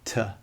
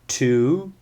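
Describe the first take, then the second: First: The word has a reduced schwa vowel. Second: The word has a full 'oo' vowel. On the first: The word is inside a sentence and unstressed. "and a weak form" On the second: The word stands alone or is stressed. "It has a strong form"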